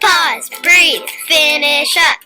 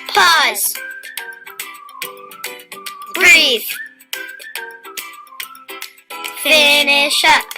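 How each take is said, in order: First: It is said a little faster. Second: It is said at a normal, unhurried pace.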